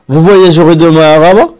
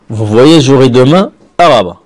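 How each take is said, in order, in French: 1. La voix monte à la fin. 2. La voix descend à la fin. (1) "on arrondit la phrase à la forme interrogative" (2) "C'est une phrase déclarative"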